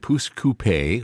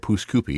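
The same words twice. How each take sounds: First: It is pronounced differently from the local way. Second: It is pronounced the way local people say it.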